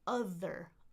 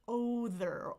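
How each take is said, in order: First: The first vowel is a short 'uh' sound. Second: The first vowel is an open 'aw' sound. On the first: The speaker calls it right. "like brother, mother. That letter O is very often the uh sound" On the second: The speaker calls it wrong. "a lot of people say other, other, other, and then I'm thinking author"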